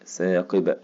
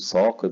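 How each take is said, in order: First: The first consonant sounds light and thin. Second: The first consonant sounds heavy and emphatic. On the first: The speaker calls it right. "أقول النجم الساء ثاقب ثاقب" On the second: The speaker calls it wrong. "ما ينفعش أقول ثاقب النجم الثاقب، غلط، ... طلعت مني مفخمة"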